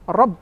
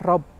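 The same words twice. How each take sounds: First: The final b is pressed and emphasized. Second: The final b is light and not pressed. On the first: The speaker calls it right. "tapi harus rob ... meninggi gitu, menegaskan, ditekan" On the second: The speaker calls it wrong. "jangan sampai nggak ditekan. Misalkan rob"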